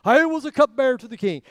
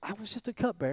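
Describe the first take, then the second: First: Loud and high, proudly announcing I was a cupbearer; louder proud take of the line. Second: Soft, humble "just a cupbearer", voice dropped; quiet self-effacing take of the line. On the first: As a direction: say "I was a cupbearer to the king" with chest out, full voice. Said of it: "I wonder what inflection". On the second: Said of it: "or if it was". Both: Shown as a demonstration.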